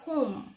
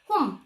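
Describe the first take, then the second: First: The vowel is a long, gliding 'oh'. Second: The vowel is a short, clipped 'o'. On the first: The speaker calls it right. "장모음 O로 발음하셔야" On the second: The speaker calls it wrong. "home 아니라"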